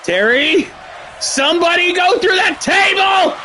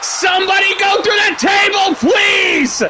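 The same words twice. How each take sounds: First: High shout, punching that in somebody go through that table; thrilled fan yelling at the screen; excited pleading shout. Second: High shout, leaning on through in somebody go through that table; desperate fan shouting at the game; excited pleading shout. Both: Real, not acted. Begging for a table spot.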